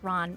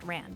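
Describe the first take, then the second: First: The vowel sounds like the one in cot. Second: The vowel sounds like the one in cat. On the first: "I have heard it pronounced Ron" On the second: "My apologies if it is pronounced Ran"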